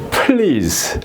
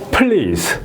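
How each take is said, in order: No difference in how they are said.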